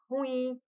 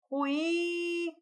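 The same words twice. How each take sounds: First: Said in the usual way. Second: I in "ruim" held very long on a high pitch; "ruim" with a high, stretched-out final I; strong I sound. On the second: Shown as a demonstration. Teacher shows students the strong I, long high I in "ruim". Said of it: "Som forte".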